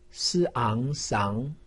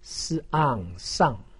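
First: The pitch rises from mid to high. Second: The pitch falls sharply from high. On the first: "二声" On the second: "四声"

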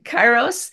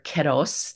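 First: The word has an English-style pronunciation. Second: The word has a Greek-style pronunciation.

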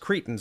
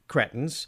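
First: The word is said in a plain, ordinary way. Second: The word is said in an affected, posh way. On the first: The speaker calls it right. "no, actually, it's pronounced cretins" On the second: The speaker calls it wrong. "mocked for saying it in a hoity-toity shitty way, incorrectly"

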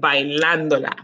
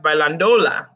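First: The stress falls on the syllable ban. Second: The stress falls on the syllable do. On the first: The speaker calls it right. "This is that accent rule" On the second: The speaker calls it wrong. "If we took that tilde away, it would be pronounced bailándola, which is muy, muy raro"

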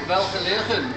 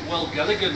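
First: The name is said the local way. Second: The name is said the anglicized way. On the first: This is how the speaker says it now. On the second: This is how a newcomer said it.

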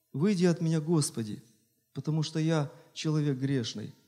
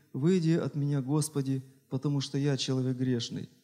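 Both takes have the same delivery.

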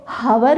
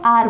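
First: The word begins with an h sound. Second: The word begins with a vowel sound. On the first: The speaker calls it wrong. "हावर नहीं बोलते" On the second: The speaker calls it right. "हम इसको आर बोलते हैं"

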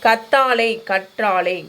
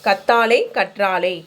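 The two takes are said the same way.

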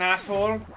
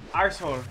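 First: The word is said without an R sound. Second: The word is said with an R sound.

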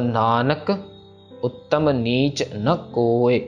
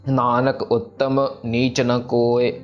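First: The pause comes after the first word. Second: The pause comes after the second word. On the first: The speaker calls it right. "Nanak पे विश्राम लगाना है" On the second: The speaker calls it wrong. "यहाँ पे काफी जन उत्तम पे लगा देते हैं ... ऐसे नहीं कहना"

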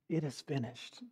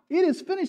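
First: It is said quietly and without triumph. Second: It is shouted loudly and triumphantly.

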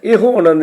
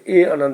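First: The first word ends with a long 'o' vowel. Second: The first word ends without an 'o' vowel. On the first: The speaker calls it wrong. "ਇਹੋ ਆਨੰਦ ਨਹੀਂ, ਇੱਥੇ ਇਹੋ ਨਹੀਂ ਪੜ੍ਹਨਾ" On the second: The speaker calls it right. "ਇਸ ਨੂੰ ਇਹ ਹੀ ਪੜ੍ਹਨਾ"

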